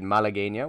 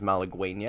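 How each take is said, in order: First: The word is said with a Spanish-style pronunciation. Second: The word is said with an English-style pronunciation. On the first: The speaker calls it right. "We played Malagueña" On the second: The speaker calls it wrong. "which a lot of dumb people pronounce as"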